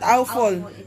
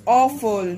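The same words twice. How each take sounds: First: The first vowel is not the aw sound. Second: The first vowel is the aw sound. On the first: The speaker calls it wrong. "That's not awful" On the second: The speaker calls it right. "The A and W there um, read as aw"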